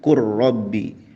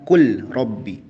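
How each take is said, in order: First: The L merges fully into a doubled R. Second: The L is pronounced clearly before the R. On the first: The speaker calls it right. "tapi dibacanya qur rabbi" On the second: The speaker calls it wrong. "bukan kul rabbi ya"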